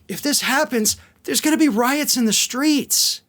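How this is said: It is said in a concerned, cautioning tone. This is a warning of danger. "the first one, of course, was a warning"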